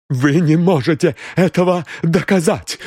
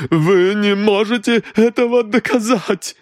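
First: High, stressed ЭТОГО, breathless; gasped defiance. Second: Even higher, frantic ЭТОГО; gasped defiance, rising. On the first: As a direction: throw the challenge back, first time. (выдохнула с вызовом) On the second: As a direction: repeat it more desperate. (повтор на грани истерики) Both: A narrator's reading. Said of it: "выдохнула дама".

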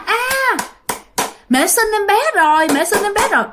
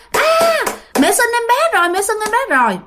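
First: Put-on high, bright childish announcement; a little kid blurting out happy news, high up; excited child cry. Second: Yelling it out. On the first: Little child announcing a new sibling, high excited cry. Small child thinks baby was born. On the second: Retold or imitated. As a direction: shout it to the whole house, pitched way up. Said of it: "Mà bạn la làng lên".

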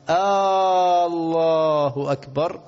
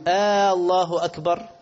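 First: Stretched questioning takbir. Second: "آه، الله أكبر" with a long a, higher, like a question; questioning takbir. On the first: Teacher mimics an old-style imam who stretches the takbir for the crowd. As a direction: stretch "آه، الله أكبر" out loud, as if asking. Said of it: "بيحب يمطط فيها ويسمع الناس". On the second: Teacher imitates an imam who turns the takbir into a question. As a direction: draw out "آه" so the takbir sounds like a question. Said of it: "ده إيه؟ ده سؤال". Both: Shown as a demonstration.

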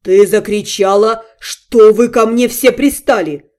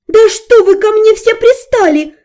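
First: Slow, menacing hissed repeat; sinister hiss. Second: High, loud exasperated shout; explode, out of patience; yelling. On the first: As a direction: mustache twirling villain menace. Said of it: "зловеще прошипел Вашарий". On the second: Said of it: "заорала я". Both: A narrator's reading.

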